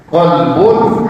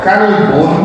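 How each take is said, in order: First: Slow "Kolbun" with back k and o vowel; kolbun with qaf. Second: Slow "kalbun" with front k and open a; kalbun with kaf. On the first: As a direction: draw out "Kolbun" from the back of the mouth. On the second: Teacher warning it means dog, slow front-k "kalbun". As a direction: draw out "kalbun" with a light forward k. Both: Shown as a demonstration. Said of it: "huruf satu huruf saja".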